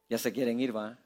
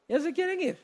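First: Low, hushed aside; low teasing aside. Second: Small, high, soft voice; high teasing voice. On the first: Preacher to restless congregation, low quiet aside. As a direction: say it softly, dropped right down. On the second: Preacher teasing restless congregation, high soft voice. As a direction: squeak it softly, pitched way up. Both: Real, not acted.

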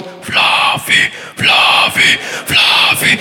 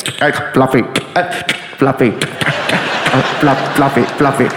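First: Chanted, hoarse, voiceless imitated crowd roar. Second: Low, crackly walkie-talkie voice; radio chatter. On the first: Crowd greeting the comic, imitated breathy roaring chant. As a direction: chant like a distant stadium crowd. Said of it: "the crowd starts going". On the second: Retold or imitated. Name heard on all the radios, as crackly chatter. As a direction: imitate clipped radio calls between static. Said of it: "hearing on all the radios".

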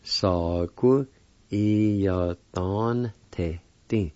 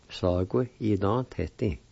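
First: "Sagu Iyadon Te Ting" very slowly, syllables stretched; slow careful pronunciation. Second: Said in the usual way. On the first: Shown as a demonstration. Teacher joining the parts for learners, "Sagu Iyadon Te Ting" slow and drawn out. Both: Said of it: "And together".

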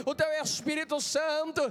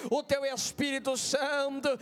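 Both takes have the same delivery.

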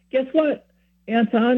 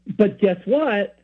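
First: Much higher, happy caller; happy news. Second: Slow, raised, almost vindictive tease. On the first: Friend calls back after confession, sounding really happy. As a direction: imitate someone bursting with good news. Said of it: "he kinda sounds really happy". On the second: Friend about to prove the speaker wrong, almost vindictive. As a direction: draw it out as if proving someone wrong. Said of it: "in that tone of voice". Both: Retold or imitated.

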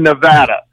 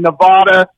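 First: "Nevada" said as neh-VAD-uh; Nevada with flat a. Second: "Nevada" said as neh-VAH-duh; Nevada with broad a. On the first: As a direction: say "Nevada" with the "a" of "cat" in the stressed syllable. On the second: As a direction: say "Nevada" with "ah" in the stressed syllable. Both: Shown as a demonstration. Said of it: "like in Nevada and Nevada".

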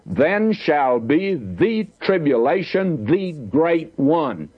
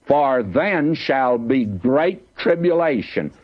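First: Slow and higher, leaning on "the" before "tribulation" and "the great one"; stress on the. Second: Slow, weighty reading of the verse; slow solemn verse. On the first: Preacher giving the literal Greek reading, slow with weight on "the". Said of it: "And the literal would be". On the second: Preacher reading the verse to the listeners, slow and solemn. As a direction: let each word land slowly. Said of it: "Now listen to him". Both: Shown as a demonstration.

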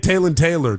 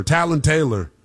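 First: "Talon" said TAY-lun, with a long A; alternative pronunciation. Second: "Talon" said TAL-un, with a short A; alternative pronunciation. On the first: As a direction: say "Talon" to rhyme its first syllable with "day". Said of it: "I don't know how to pronounce it". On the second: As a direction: say "Talon" with the A of "cat". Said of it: "if it's Talon or Talon". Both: Shown as a demonstration.

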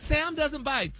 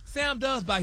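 First: Mock insistence, hitting doesn't; coworker's claim. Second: Firm correction, leaning on does. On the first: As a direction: stress on doesn't. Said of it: "and she quit". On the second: Shown as a demonstration. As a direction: stress on does.

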